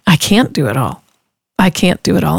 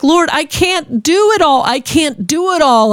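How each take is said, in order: First: Calm realization. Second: High, slow, tearful plea to the Lord; tearful pleading. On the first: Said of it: "Ooh, that's right". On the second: Overwhelmed mom crying to the Lord over broken bottle, high and slow. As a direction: cry it out, overwhelmed and near sobbing. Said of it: "I just cried". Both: Retold or imitated.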